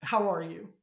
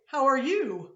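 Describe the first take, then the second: First: How are you said with a rise on how, then falling; Pittsburgh question tune. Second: How are you said the usual way; an ordinary greeting; rising greeting. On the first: Teacher showing her own reply, Pittsburgh style. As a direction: give it the local flat question tune. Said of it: "And I'm like". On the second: Teacher acting the other person's plain greeting. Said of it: "You say". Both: Shown as a demonstration.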